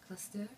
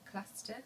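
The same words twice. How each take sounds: First: It is said in a French accent. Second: It is said in a native English accent. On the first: "now I'll do a French accent" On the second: "I'll first say it in my mother tongue"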